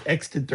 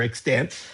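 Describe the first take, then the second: First: "extant" as EX-tint, first syllable stressed; first pronunciation. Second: "extant" as ex-TANT, second syllable stressed; second pronunciation. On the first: Teacher comparing disputed pronunciations for students, "extant" as EX-tint. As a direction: say "extant" with a reduced ending, EX-tint. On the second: Teacher comparing disputed pronunciations for students, "extant" as ex-TANT. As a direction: say "extant" with a full final vowel, ex-TANT. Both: Shown as a demonstration. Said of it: "how to pronounce it".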